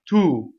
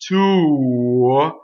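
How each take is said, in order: First: The vowel stays steady without moving. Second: The vowel glides slightly as it ends. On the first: It sounds properly Italian. The speaker calls it right. "you want to stay ooh, right, to, and not move" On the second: It sounds American rather than Italian. The speaker calls it wrong. "even that slightest bit of that will give you American accent"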